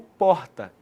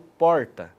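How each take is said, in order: First: The R passes softly through the throat. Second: The R is the caipira, country-style R. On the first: It is the R of Belo Horizonte. "o som passa mais suavemente pela garganta" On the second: It is the R of São Carlos and Araras. "é o R caipira"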